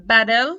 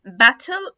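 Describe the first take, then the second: First: Louder "battle" as "baddle"; American flapped T. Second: Louder British "battle", crisp T; British clear T. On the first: Teacher drilling T plus L examples, flapped T. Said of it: "هيتنطق D". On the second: Teacher contrasting with American D, British clear T. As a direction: say battle slowly as "bat-tel". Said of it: "في ال British accent". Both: Shown as a demonstration.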